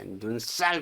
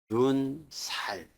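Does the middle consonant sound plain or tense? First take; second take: tense; plain. First: The s sound is tense and hard. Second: The s sound is plain and soft. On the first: The speaker calls it wrong. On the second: The speaker calls it right.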